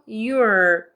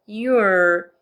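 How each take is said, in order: Both takes have the same delivery.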